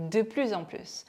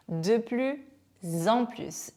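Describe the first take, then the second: First: "De plus en plus" run together, z linking plus to en; liaison demo. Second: "de plus", a clear pause, then "en plus"; "de plus en plus" in two careful halves with a gap between; broken-up teaching demo. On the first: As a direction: link "De plus en plus" as one phrase, plus-z-en. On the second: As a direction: split "de plus / en plus" for learners to follow. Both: Shown as a demonstration. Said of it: "이미 이렇게 발음하고 있었죠".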